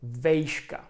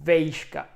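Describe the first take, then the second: First: The first vowel is the diphthong "ej". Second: The same.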